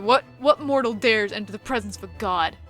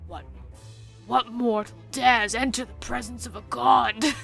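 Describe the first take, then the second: First: It is said in the speaker's normal voice. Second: It is said in a put-on dragon voice. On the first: "I'm just gonna read it normally" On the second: "I don't know if I can do this voice"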